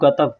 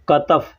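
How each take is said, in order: First: The word begins with a g sound. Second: The word begins with a k sound. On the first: The speaker calls it wrong. "लोगों को आदत है काफ को ग बोलने का" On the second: The speaker calls it right. "कंधा को कतफ कहते हैं"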